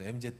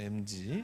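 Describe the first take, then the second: First: The final letter is said as Korean 'jet'. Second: The final letter is said as English 'jee'. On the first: It sounds like an older person's usage. "Z는 그 나이 든 사람들 얘기" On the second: It sounds like younger people's usage. "나도 이제 G로 하기로 했어요"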